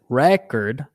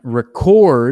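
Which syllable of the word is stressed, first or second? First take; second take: first; second. First: The stress is on the first syllable. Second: The stress is on the second syllable. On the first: It is used as a noun. "when it's the initial one, it's record, which is the noun thing" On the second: It is used as a verb. "record on the second is the verb"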